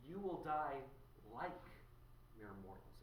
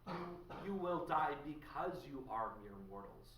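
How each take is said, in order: First: "like" set apart by a pause, then "mere mortals" dropped much softer; stress and pause on like. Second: Said in the usual way. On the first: Shown as a demonstration. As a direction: pause before "like" and let "mere mortals" fall away quietly.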